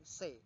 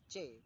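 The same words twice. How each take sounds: First: The letter is named with the English sound. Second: The letter is named with the Indonesian sound. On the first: The speaker calls it wrong. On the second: The speaker calls it right. "C bukan C"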